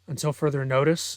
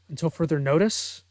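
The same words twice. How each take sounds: First: The voice is lowered to a deeper pitch. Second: The voice is pitched at its usual, higher level. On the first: Another character repeats it. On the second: One character says it.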